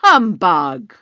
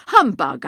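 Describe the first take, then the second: First: "Humbug" shouted much louder, rising at the end. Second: "Humbug" barked loud with a falling end; scornful humbug. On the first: Scrooge repeats louder. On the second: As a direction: spit out "Humbug" and drop it flat. Scrooge dismisses ghost. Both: Acted.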